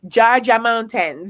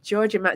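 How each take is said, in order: First: It is said in a Jamaican accent. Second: It is said in her ordinary American accent.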